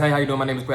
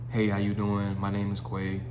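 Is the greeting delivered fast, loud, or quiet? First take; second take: fast; quiet. First: It is said very quickly and rushed. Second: It is said quietly and hesitantly. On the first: The speaker seems anxious to get it over with. "you don't want to talk super fast" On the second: The speaker seems nervous and unsure. "You sound quiet"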